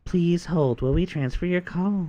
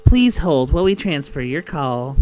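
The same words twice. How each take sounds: First: Hold message voice. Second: Loud slow phone recording; automated hold message. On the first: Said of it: "softer on the voice". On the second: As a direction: announce it like a phone system. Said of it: "instead of doing the demonic voice". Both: Shown as a demonstration.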